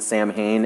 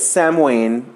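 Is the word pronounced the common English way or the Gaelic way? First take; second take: common English; Gaelic. First: The word is pronounced the common English way. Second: The word is pronounced the Gaelic way. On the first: "everybody pronounces it Samhain anyway" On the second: "because of the Gaelic pronunciation"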